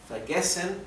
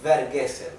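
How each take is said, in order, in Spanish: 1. El primer sonido es un sonido F. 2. El primer sonido es un sonido V. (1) "la V se pronuncia como una F" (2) "No es vergessen"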